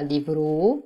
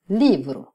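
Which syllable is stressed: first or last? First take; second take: last; first. First: The stress is on the last syllable. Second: The stress is on the first syllable. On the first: The speaker calls it wrong. "On ne dit pas livro" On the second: The speaker calls it right. "on dit livro"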